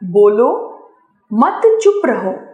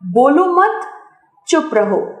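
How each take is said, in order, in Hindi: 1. bolo के ठीक बाद विराम है। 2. mat के ठीक बाद विराम है। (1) "दूसरे वाक्य में बोलने के लिए कहने का भाव प्रकट हो रहा है" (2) "अंतिम वाक्य में चुप कराने का भाव स्पष्ट हो रहा है"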